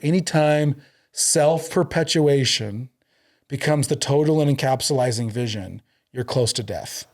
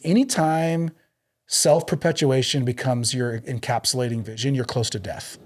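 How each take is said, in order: First: It is said slowly. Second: It is said at normal speed.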